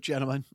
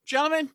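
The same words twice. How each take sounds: First: Said in the usual way. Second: Higher, hammed-up evil greeting; evil villain voice. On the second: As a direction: greet them like a movie villain. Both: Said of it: "Too evil".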